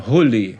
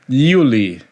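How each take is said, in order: First: The name starts with a rough h-like sound. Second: The name starts with a soft y-like sound. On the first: This is how it is said in the country of origin. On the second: This is how it is said at home.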